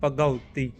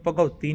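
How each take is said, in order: First: ਭਗਉਤੀ with ਗ and a separate short "u"; correct ਭਗਉਤੀ. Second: ਭਗਉਤੀ with a heavy "au" wrongly on ਗ; misread ਭਗਉਤੀ. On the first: Teacher modelling the reading, ਭਗਉਤੀ with its short "u" kept apart. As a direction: say ਭਗਉਤੀ as bha-ga-u-tee. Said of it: "ਗੱਗਾ, ਊੜੇ". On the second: Teacher showing learners the misreading, ਭਗਉਤੀ with "gau" as one vowel. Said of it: "ਇਹਨੂੰ ਭਗਉਤੀ ਨਹੀਂ ਪੜ੍ਹਨਾ". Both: Shown as a demonstration.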